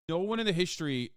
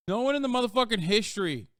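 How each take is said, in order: First: Said in the usual way. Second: Higher and louder, hammering the point; exasperated emphatic rant; emphatic outburst. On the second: Real, not acted. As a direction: raise your voice on "motherfucking history".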